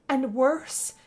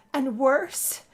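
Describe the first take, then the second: No difference in how they are said.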